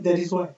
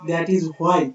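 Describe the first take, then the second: First: It is said quickly in an American accent. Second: Why is said with a clear h sound.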